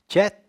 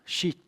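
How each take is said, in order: First: The vowel is an open 'ah' sound. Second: The vowel is a long 'ee' sound. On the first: "é cheat ou chat?" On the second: "Ignorando o A. Cheat, exatamente"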